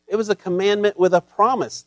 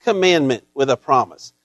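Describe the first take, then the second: First: "promise" lands as the peak, falling at the end; sermon line with the weight on "promise"; stress on promise. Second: "commandment" is hit first and hardest, then a fall; sermon line with the weight on "commandment"; stress on commandment. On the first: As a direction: lean on "promise" with a falling close. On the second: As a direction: punch "commandment" and let the rest drop. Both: Shown as a demonstration. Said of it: "repeated phrase, stress shifts".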